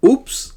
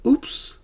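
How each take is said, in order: First: Very high, louder oops; a startled yelp at the mistake; oops slip-up. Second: Whispered oops. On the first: Teacher giving the answer for a forgotten wallet, high oops. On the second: Teacher trying the answer again as a whispered oops. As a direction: murmur the oops under your breath. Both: Shown as a demonstration. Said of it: "use the interjections correctly".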